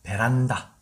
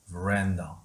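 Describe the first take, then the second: First: It is said as a Korean loanword. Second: It is said in English, stressing the second syllable. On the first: "우리는 이것을 베란다고 합니다" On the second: "팔랑개비 위에 강세가 있죠"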